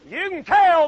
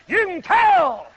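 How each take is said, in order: First: Said in the usual way. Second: Slow, louder, higher; emphatic shout; preaching shout. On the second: Real, not acted. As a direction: hammer it home to the crowd. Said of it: "You can tell, brother".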